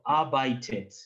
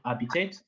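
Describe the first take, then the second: First: The middle syllable sounds like 'bite'. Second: The middle syllable sounds like 'bit'. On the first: The speaker calls it right. "So arbeitet" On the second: The speaker calls it wrong. "It's not habitat"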